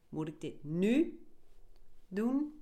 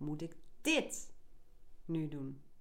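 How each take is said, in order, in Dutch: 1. De klemtoon ligt op het woord nu. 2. De klemtoon ligt op het woord dit.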